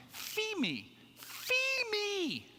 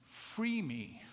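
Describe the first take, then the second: First: Put-on high, wailing little-kid cry of fee me, mispronouncing free as fee; toddler screaming. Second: Said in the usual way. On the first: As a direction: scream fee me like a panicked small child stuck in the snow. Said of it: "he starts screaming". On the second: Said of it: "it dawned on me. He was saying".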